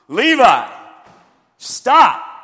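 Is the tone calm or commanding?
commanding. It is said in a firm, commanding tone.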